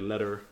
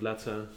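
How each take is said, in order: First: It is said without a British accent. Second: It is said with a British accent. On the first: The speaker calls it wrong. "I would say letter" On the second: The speaker calls it right. "instead of letter"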